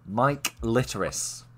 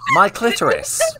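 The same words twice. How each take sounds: First: The name is said at normal, slower speed. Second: The name is said quickly, run together.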